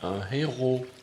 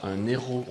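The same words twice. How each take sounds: First: The n sound stays apart from héros. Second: The n sound runs into héros. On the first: The speaker calls it right. "on ne fait pas la liaison" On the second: The speaker calls it wrong. "On ne dit pas un héros"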